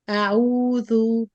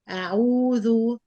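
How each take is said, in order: Both takes have the same delivery.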